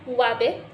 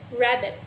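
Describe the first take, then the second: First: Wabbit with a W in place of R; childlike sound swap on wabbit; substituted sound. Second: Said in the usual way. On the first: Shown as a demonstration. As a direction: say wabbit, swapping the R for W. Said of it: "the example of this is wabbit instead". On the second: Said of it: "instead for the word rabbit".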